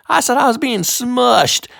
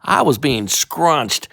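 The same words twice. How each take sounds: First: Said again much higher; higher retake. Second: Said in the usual way. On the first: Shown as a demonstration. Reader fixing the word, voice jumping high.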